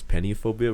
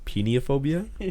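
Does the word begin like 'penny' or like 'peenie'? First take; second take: penny; peenie. First: The word begins with a short 'pen' sound. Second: The word begins with a long 'peen' sound. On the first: "not because we read it as" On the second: "We read it as peniophobia, which was even better because like peenie"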